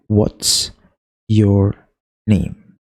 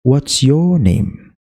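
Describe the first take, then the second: First: Slow "What's... your... name" with clear gaps; each word of "What's your name" alone as one syllable. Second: Slow "What's YOUR name", "your" higher, then falling on "name"; stress on YOUR. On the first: Teacher counting syllables for beginners, word by word. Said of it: "Jadi ada tiga suku kata". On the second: Teacher showing beginners falling intonation, stress on YOUR. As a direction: lean on "your" and let "name" drop. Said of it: "penekanan di situ. Jadi hasilnya kayak gini". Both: Shown as a demonstration.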